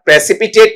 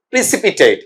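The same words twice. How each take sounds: First: "प्रेसिपिटेट" with a short open "pre" and a flat "tet" at the end; wrong pronunciation. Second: "प्रेसिपिटेट" as pri-si-pi-tayt, with "pri" at the start and a long "ay" gliding into the final t; correct pronunciation. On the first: Teacher shows students the mistaken way, pre-si-pi-tet. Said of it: "इसका उच्चारण प्रेसिपिटेट नहीं". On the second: Teacher gives students the right form, pri-si-pi-tayt. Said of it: "क्या बोलेंगे बेटा इसे". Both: Shown as a demonstration.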